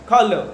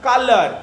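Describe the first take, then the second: First: কালার as "kha-luh", silent R; British-style pronunciation. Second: কালার with full "-ar" ending, "ka-lar"; variant pronunciation. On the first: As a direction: puff the K of কালার and drop the R. (কালার, 'খালা'-র মতো, শেষে 'র' নেই) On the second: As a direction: give কালার an unaspirated K and clear ending. (কালার, সাধারণ 'ক' আর স্পষ্ট শেষাংশে) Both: Shown as a demonstration. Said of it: "উচ্চারণগুলো আলাদা আলাদা".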